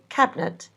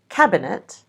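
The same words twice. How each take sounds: First: The middle vowel is dropped. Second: The middle vowel is fully pronounced.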